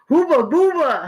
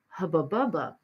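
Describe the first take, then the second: First: The vowels are long 'oo' sounds, as in boot. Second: The vowels are short 'uh' sounds, as in cup. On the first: "your average German ... they will go, hooba booba" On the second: "We Americans pronounce that American bubble gum hubba bubba"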